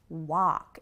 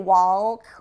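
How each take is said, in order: First: No L sound is pronounced before the K. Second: An L sound is pronounced before the K. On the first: The speaker calls it right. "please don't say the L" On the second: The speaker calls it wrong. "We don't say walk"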